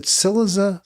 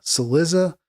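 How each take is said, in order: First: "Cillizza" stressed on the first syllable, CIL-lizza; questioning, higher, "Cillizza" with the first syllable stressed. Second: "Cillizza" stressed on the second syllable, cil-LIZ-za; questioning, higher, "Cillizza" with LIZ stressed. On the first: Host unsure how the name goes, first syllable stressed. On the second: Host unsure how the name goes, second syllable stressed. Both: Shown as a demonstration. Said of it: "where you stress the accent".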